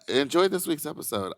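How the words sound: It is said in a warm, friendly tone.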